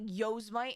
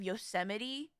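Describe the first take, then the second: First: The word is said as it is spelled. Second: The word is said the usual way. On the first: The speaker calls it wrong. "a word that you've only ever read but never heard pronounced" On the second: The speaker calls it right. "instead of Yosemite"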